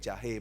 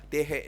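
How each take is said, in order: First: The word begins with a j sound. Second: The word begins with a d sound. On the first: This is the word that was meant. The speaker calls it right. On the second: A small child is saying it. The speaker calls it wrong.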